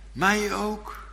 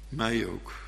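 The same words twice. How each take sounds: First: Hoog, onzeker "mij ook"; vragend gemeentelid. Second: Said in the usual way. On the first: Pretend. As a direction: vraag het hoog en aarzelend. Gemeentelid vraagt. (gemeentelid vraagt het hoog: "mij ook")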